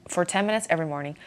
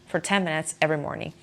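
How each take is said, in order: Both takes have the same delivery.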